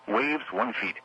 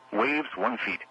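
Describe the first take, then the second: No difference in how they are said.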